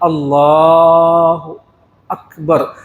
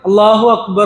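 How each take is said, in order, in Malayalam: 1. അക്ബർ w ശബ്ദമില്ലാതെ വൃത്തിയായി തുടങ്ങുന്നു. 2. അല്ലാഹുവിനെ അക്ബറുമായി w ശബ്ദം ബന്ധിപ്പിക്കുന്നു. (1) "അക്ബർ എന്ന് തന്നെ പറഞ്ഞിട്ടാ" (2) "എന്ന് പറയരുത്. അല്ലാഹു അക്ബർ എന്ന് പറഞ്ഞാൽ വാവാണ് അവിടെ വരുന്നത്"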